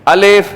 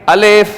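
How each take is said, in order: Both takes have the same delivery.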